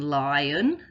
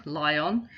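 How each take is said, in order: First: Said in the usual way. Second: "lion" with a full O, li-ON; every letter sounded in "lion", rising at the end; spelling pronunciation. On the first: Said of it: "the O is making the uh sound". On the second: Shown as a demonstration. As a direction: say "lion" as spelt, ending in a clear "on". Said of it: "you can hear all the letters and all the sounds".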